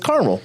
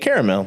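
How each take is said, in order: First: The word is said with two syllables. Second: The word is said with three syllables. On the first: "if it's just C A R M E L, then it's caramel" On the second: "if there's an A after the R, then I say caramel"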